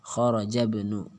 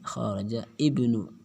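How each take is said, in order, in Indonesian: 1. Kedua kata tersambung tanpa hentian. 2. Hamzah (hentian glotal) memulai kata kedua. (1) "maka hamzah tidak dibaca, langsung"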